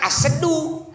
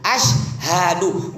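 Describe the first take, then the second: First: The middle is said as 'se', shortened. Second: The middle is said as 'syha', three syllables. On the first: The speaker calls it wrong. "bukan asedu" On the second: The speaker calls it right. "yang betul asyhadu"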